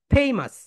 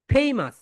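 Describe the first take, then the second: First: "ফেমাস" said as FAY-mus with a long ay; right pronunciation. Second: "ফেমাস" said with a flat short a, the wrong way; wrong pronunciation. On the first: Teacher giving students the correct form, stressed and clear. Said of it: "right pronunciation হবে ফেমাস". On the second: Teacher showing students the common mistake, wrongly pronounced. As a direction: say "ফেমাস" like fem-as, mispronounced on purpose. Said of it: "এটাকে আমরা ফেমাস বলি না". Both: Shown as a demonstration.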